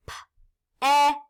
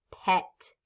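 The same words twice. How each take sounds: First: "P-E-T" as three separate letter sounds, puh, eh, tuh; tapped-out sounds. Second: Said in the usual way. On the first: Shown as a demonstration. Teacher tapping out the second word, "P-E-T" sound by sound. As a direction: sound out "P-E-T" with gaps between sounds. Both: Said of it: "Let's tap it".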